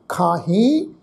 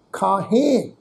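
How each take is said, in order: First: ਖਾਹੀ with a rising, nasal final ee; demonstrated rising tone. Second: ਖਾਹੇ with a falling, nasal final e; demonstrated falling tone. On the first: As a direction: lift the tune at the end of ਖਾਹੀ. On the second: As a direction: let the tune drop at the end of ਖਾਹੇ. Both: Shown as a demonstration. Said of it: "ਤੁਸੀਂ tone ਸਮਝੋ".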